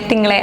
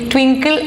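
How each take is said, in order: First: The name is said without a w sound. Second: The name is said with a w sound. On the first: This is how most people usually call the name. "എല്ലാവരും pronounce ചെയ്യണ രീതി വേറെയാ" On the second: This is the proper form, rarely used by people around. "ഈ ട്വിങ്കിൾ എന്ന് പറയുന്നത് വളരെ കുറവാണ്"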